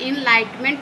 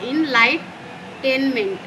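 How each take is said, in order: First: The middle 'ten' syllable is left out. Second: The middle syllable is said as 'ten'. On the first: The speaker calls it right. "इनलाइटमेंट पढ़ना" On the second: The speaker calls it wrong. "तो टेनमेंट नहीं पढ़ना"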